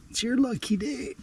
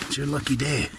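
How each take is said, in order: First: Soft high sing-song to a fish; playful high coo. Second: Said in the usual way. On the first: Pretend. Angler teasing the bass with its luck, high and playful. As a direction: tease it softly up high.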